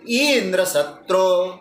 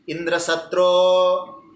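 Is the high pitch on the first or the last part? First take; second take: first; last. First: The first part is high, the last low. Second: The first part is low, the last high.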